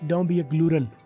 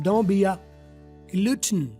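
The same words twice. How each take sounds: First: It is said in an American accent. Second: It is said in a British accent.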